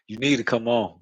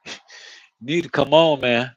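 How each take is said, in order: First: Said in the usual way. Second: A touch louder, pushing her to hurry; mildly raised, coaxing come on; urging girlfriend. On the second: Retold or imitated. Telling his woman to come on, lightly raised urging. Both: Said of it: "I keep telling".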